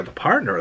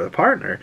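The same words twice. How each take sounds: First: Said in the usual way. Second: Partner? pitched up high in disbelief; incredulous the partner?. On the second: Shown as a demonstration. To Mom, questioning her about the partner, disbelieving. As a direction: echo the partner? as a baffled question.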